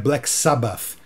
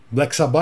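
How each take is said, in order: First: Sabbath ends with a TH sound. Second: Sabbath ends without a TH sound. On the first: This is the band's real name. "Tem aquele T H no finalzinho que você pronuncia também" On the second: This is the Brazilian way of saying it. "é a brasileirada mesmo, tá tudo certo"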